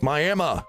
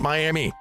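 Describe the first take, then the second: First: It is said the local Oklahoma way. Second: It is said the common, outsider way. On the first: This is how the people who live there say it. The speaker calls it right. "it's Miami" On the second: This is how outsiders say it. The speaker calls it wrong. "not Miami"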